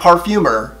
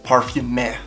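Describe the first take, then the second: First: The ending is said like English 'mer'. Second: The ending is said with a French 'eur' vowel. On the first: The speaker calls it wrong. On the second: The speaker calls it right.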